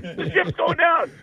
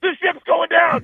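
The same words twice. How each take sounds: First: High panicked repeat, quieter; mock panic, softer. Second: High, louder panicked cry; mock panic. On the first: Comedian mocking panicked fans, high softer repeat. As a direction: wail it again, fading. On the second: Comedian mocking panicked fans, high louder cry. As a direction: shout it like the ship sinks. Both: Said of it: "freak out and go".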